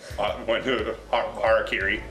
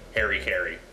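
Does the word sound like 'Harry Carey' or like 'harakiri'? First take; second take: harakiri; Harry Carey. First: It sounds like one word, harakiri. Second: It sounds like the two names Harry Carey.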